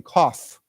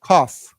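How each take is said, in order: First: "cough" said as kawf, ending on a clear F; "cough" with a crisp final F. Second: "cough" repeated louder, ending on a clear F; louder cough drill. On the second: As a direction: punch out "cough" with its F. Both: Shown as a demonstration. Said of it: "let's say it again".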